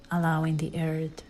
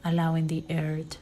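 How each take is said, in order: Both takes have the same delivery.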